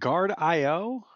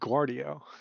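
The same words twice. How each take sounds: First: The name starts with the plain word 'guard'. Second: The name starts like the airport name LaGuardia.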